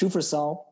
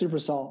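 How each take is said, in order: First: It begins with 'sh' and has an 'f'. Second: It begins with 's' and has a 'p'. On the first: The speaker calls it wrong. "Some people think pronounced Shufersol, but they're wrong" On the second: The speaker calls it right. "It's pronounced Supersol"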